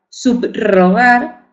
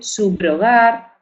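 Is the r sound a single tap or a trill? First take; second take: trill; single tap. First: The r is a strong rolled trill. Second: The r is a single soft tap. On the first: "ellos lo pronuncian múltiple" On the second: "Más suave, simple"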